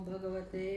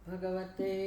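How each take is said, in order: The two takes are said the same way.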